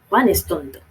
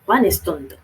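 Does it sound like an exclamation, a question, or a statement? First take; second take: exclamation; exclamation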